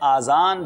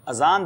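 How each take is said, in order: First: The first vowel is long. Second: The first vowel is short. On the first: The speaker calls it wrong. "आज़ान जो है ये लफ्ज़ दुरुस्त नहीं है" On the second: The speaker calls it right. "अजान दुरुस्त है"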